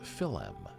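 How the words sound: A vowel separates the L and M sounds.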